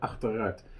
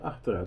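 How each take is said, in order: First: It is said slowly, split into two parts. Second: It is said quickly as one run-together word. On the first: The eight is taken out. "Maar ik zeg achteruit" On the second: The car's reverse gear. "als ik het snel zeg, dan klinkt het als achteruit"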